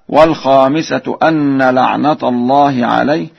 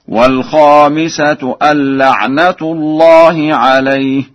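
First: The n is doubled and la'nata ends in a. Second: The n is single and la'natu ends in u.

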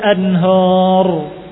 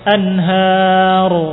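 First: The final vowel is heavy and dark, like 'o'. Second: The final vowel is light and thin, like 'a'. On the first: The speaker calls it wrong. "Bukan min tahtihal anhor" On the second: The speaker calls it right.

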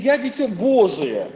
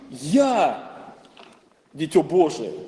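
First: The word Божие carries the emphasis. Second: The word Я carries the emphasis. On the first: The focus is on God. "или на Бога" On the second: The focus is on oneself. "мы можем ставить акцент на себя"

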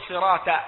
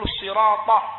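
First: The final t sound is light and plain. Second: The final t sound is heavy and emphatic. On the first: The speaker calls it wrong. "الطاء تاء يجعلها" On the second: The speaker calls it right. "بدل أن يقول الصراط"

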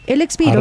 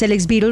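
First: The phrase is spoken slowly and clearly. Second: The phrase is spoken quickly and runs together. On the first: The speaker calls it right. "voy a decirlo más despacio" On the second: The speaker calls it wrong. "El texto está muy rápido y no se entiende nada"

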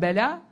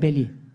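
First: The word ends with an 'a' vowel. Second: The word ends with an 'i' vowel. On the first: This is the original classical form. The speaker calls it right. "bela evet demek. Arapçada" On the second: This is a later altered dialect form. The speaker calls it wrong. "Şimdiki bazı Arap şeylerini bozmuşlar, şiveleri"

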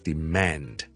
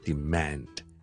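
First: It is said in an American English accent. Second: It is said in an American English accent.

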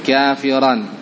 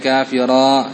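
First: The final tanwin vowel is read short. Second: The final vowel is drawn out long. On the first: The speaker calls it right. "baca tanwin itu dengan pendek" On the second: The speaker calls it wrong. "Jangan dibaca kafira"

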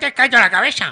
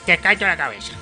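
First: The words are said in an aggressive tone. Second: The words are said in a softer, calmer tone.

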